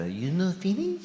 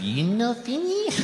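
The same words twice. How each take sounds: First: Put-on a light Japanese accent, rising at the end. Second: Put-on high, slow Japanese-accented question. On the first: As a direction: gently mimic the waitress's Japanese accent. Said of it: "I have to do the accent". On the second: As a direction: mimic the waitress's accent, lifting high. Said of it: "She said".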